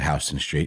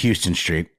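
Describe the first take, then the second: First: Houston is pronounced the way it is in New York. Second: Houston is pronounced the way it is in Texas. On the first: "It's only New York where they pronounce that" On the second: "it being Texas and all"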